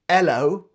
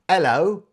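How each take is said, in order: First: The H sound at the start is dropped. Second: The H sound at the start is dropped.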